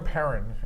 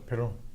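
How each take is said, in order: First: The name is said the plain English way. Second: The name is said the French way. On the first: "we go Perrin" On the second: "you could say it the French way"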